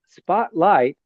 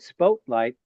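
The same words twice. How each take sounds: First: The first vowel is a short 'ah' sound. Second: The first vowel is a long 'oh' sound. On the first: The speaker calls it right. "a short pronunciation of that vowel" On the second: The speaker calls it wrong. "That would be a long pronunciation of that vowel"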